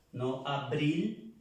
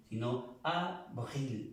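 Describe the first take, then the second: First: "abril" with Spanish b, slow; wrong Spanish b. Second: "abril" said avril with a v, slow; French v. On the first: Teacher showing students the sound to avoid. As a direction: show the wrong b sound slowly. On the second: Teacher modelling the French v for students. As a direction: press the lip for the v in "abril". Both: Shown as a demonstration. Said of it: "abril en francés es con V".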